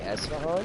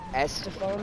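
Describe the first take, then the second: First: The name is said without a 't' sound. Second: The name is said with a 't' sound. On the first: The speaker calls it right. "it's actually Esfahan" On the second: The speaker calls it wrong. "you've been saying Estefan this whole time"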